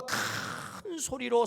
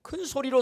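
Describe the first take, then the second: First: 큰 held long and drawn out; a long, swelling 큰 before 소리로; stretched emphasis on 큰. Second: Said in the usual way. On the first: Shown as a demonstration. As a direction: stretch the vowel of 큰 to picture a big shout. Illustrates the loud cry by stretching.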